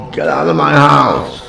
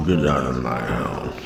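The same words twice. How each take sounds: First: Raised, high-pitched angry yell; big yell. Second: Low, soft anger through gritted teeth. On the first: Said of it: "I want a big yell". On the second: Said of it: "they speak through gritted teeth". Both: Shown as a demonstration.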